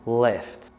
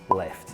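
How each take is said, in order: First: The L sound is given extra emphasis. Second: The L sound is plain and unemphasized. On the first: The speaker calls it right. "A bit of emphasis on the L" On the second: The speaker calls it wrong. "you don't say left"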